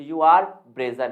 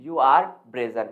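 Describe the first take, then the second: First: "You are brazen" said very slowly and loud, stretching every word; slow emphatic model sentence. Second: "You are brazen" said very slowly, each word drawn out; slow model sentence. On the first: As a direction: drill it out slowly and loudly like a teacher. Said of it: "तो". ("You are brazen" बहुत धीरे और ज़ोर से) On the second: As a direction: repeat it slowly for the class. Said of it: "तू बेशरम है भाई". ("You are brazen" धीरे-धीरे दोहराएँ) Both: Shown as a demonstration.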